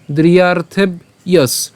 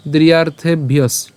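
First: "দ্রিয়ার্থে", pause, then "yes"; broken in pieces. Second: "দ্রিয়ার্থে ভিয়স" linked, ending bhiyos; joined pronunciation. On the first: Teacher reading the broken-up word, "দ্রিয়ার্থে" and "yes" apart. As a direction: split "yes" off as its own piece. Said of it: "এরপর কি হবে?". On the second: Teacher showing how to pronounce it, "দ্রিয়ার্থে ভিয়স" run together. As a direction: carry bh straight into "ভিয়স" with no gap. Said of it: "এটা আমরা শুধু উচ্চারণ করব". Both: Shown as a demonstration.

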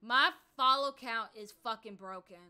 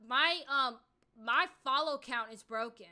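First: Louder, harder on the swear; angrier repeat. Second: Annoyed complaint. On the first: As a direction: push the frustration up a notch. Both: Real, not acted. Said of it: "Like, I'm really pissed off right now".

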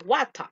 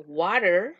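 First: Water with a crisp T and no final r; hard T in water, open ending; British pronunciation. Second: Water with an r-like tapped T; American pronunciation. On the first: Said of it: "es inglés británico". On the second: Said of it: "se hace como una pronunciación R". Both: Shown as a demonstration.

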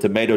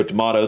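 First: Tomato with a long A, tuh-MAY-toe; American pronunciation. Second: Tomato with a broad A, tuh-MAH-toe; British pronunciation. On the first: Reactor explaining the difference in the A, American pronunciation. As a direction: make the A in tomato rhyme with "day". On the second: Reactor explaining the difference in the A, British pronunciation. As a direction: open the A in tomato to "ah". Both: Shown as a demonstration. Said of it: "the A, how you pronounce it".

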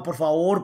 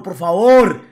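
First: Said in the usual way. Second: Por favor shouted louder as a desperate plea; loud begging. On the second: Retold or imitated. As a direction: beg hard on the second por favor. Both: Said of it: "préstame la cama pa' culiar".

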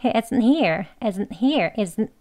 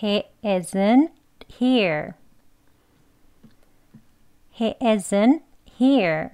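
First: Brisk he isn't here with a tiny catch; fast, compact isn't here, t unreleased; quick pronunciation. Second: He isn't, clear stop, then here; slow, separated words with a held break before here; slow demonstration. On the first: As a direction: say he isn't here quickly, keep the stop after isn't. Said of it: "빨리 발음하시면". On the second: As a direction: spell out he isn't here at a learner's slow pace. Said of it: "한번 천천히 해볼게요". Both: Shown as a demonstration.

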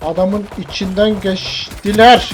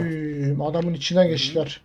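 First: "Adamın içinden geçtiler" slow, rising at the end; drawn-out disbelief. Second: Quiet, low-key remark; muted disbelief. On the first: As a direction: stretch "içinden geçtiler", lifting the last syllable. Repeats it drawn out, emphatically. ("içinden geçtiler" uzatılarak, sonu yükselen tonla) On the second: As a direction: say it softly, almost to yourself. First muted reaction to the play. (kendi kendine, alçak sesle) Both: Real, not acted.

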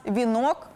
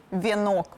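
First: Вінок with "і" in the first syllable, vi-nok; Ukrainian і vowel. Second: Вінок with "є" in place of і, vie-nok; Russian є vowel. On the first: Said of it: "в українській мові з'явилося і". (українське «і»: вінок) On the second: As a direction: say вінок as вєнок. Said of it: "а в російській є". (російське «є»: вєнок замість вінок) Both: Shown as a demonstration.

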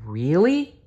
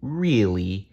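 First: Put-on high rising childlike "Really?"; hopeful question. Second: Level, smiling "Really"; smiling reassurance. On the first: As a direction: ask with sudden hope. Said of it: "asked Lori". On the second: Acted. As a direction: confirm it kindly. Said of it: "with a big dinosaur smile".

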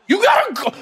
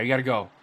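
First: Much higher, louder urging yell; excited shout. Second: Said in the usual way. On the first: Real, not acted. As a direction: scream at the player to run. Urging player on.

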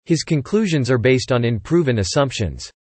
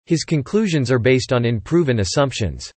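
The two takes are said the same way.

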